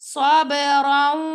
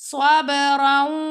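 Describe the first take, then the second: No difference in how they are said.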